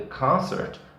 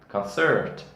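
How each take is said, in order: First: The stress is on the first syllable. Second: The stress is on the last syllable. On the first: It is the noun. "E o concerto foi ótimo" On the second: It is the verb. "verb, é verbo"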